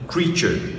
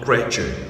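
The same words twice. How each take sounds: First: The first vowel is a long 'ee' sound. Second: The first vowel is a short 'eh' sound. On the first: The speaker calls it right. "ces deux lettres-là se prononcent I" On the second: The speaker calls it wrong. "Et non E"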